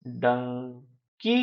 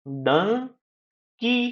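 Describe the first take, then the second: First: Dunki low and soft, slightly parted; slow syllables. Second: डं gliding up, pause, high की; split into syllables. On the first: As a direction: draw out डं, then की, quietly. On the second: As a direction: stretch and separate Dunki, pitched higher. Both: Shown as a demonstration. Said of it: "दो syllable भी होते हैं".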